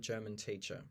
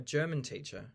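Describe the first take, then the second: First: The stress falls on teacher. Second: The stress falls on German. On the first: The teacher is from Germany. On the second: The person teaches the German language.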